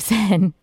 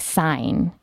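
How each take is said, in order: First: The name is not said as it is spelled. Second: The name is said as it is spelled. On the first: The speaker calls it right. "instead of Seine" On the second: The speaker calls it wrong. "I always want to say Seine"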